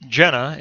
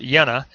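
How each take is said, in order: First: The name is said with an English-style pronunciation. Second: The name is said with a non-English pronunciation. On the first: The speaker calls it wrong. "It looks like it's Jena in English" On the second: The speaker calls it right. "it's pronounced Jena"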